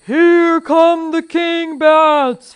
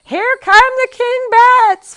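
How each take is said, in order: First: Loud, very drawn-out high wail; terrified scream. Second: Very high, loud drawn-out shriek; mother's scream. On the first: Fezzik paralyzed on the dark steps, long terrified scream. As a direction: bellow it slowly in terror. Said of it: "Fezzik screamed". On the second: Mother warns of bats, high piercing scream. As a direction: scream the alarm high and slow. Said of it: "heard his mother scream". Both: A narrator's reading.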